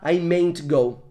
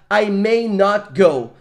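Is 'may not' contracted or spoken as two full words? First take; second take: contracted; full. First: May and not are contracted into one word. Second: May and not are said as two words. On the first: The speaker calls it wrong. "Não existe mayn't" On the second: The speaker calls it right. "Esta negativa não pode ser contraída"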